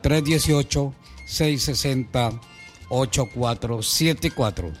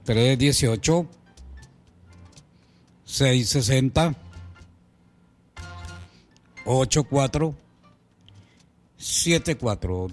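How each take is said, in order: First: The number is said at normal speed. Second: The number is said more slowly.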